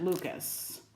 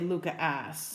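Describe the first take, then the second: First: The name is said as one word, Lucas. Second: The name is said with a separate letter S. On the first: Another stitcher says it this way. "She pronounced it Lucas" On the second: The speaker's group usually says it this way. "we always say Luca S"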